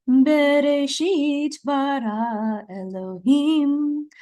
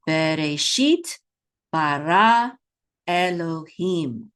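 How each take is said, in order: First: Chanted, higher, slow cantillation on held notes; chanted trope. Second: Slow, word by word, each syllable held; slow model reading. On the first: Teacher gives learners the sound and melody, chanted. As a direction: chant the words as a flowing scripture melody. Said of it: "the melody of these words". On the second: Teacher reads three words with learners, slow and measured. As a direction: read it out in drawn-out syllables with pauses. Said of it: "Let's read these three words". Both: Shown as a demonstration.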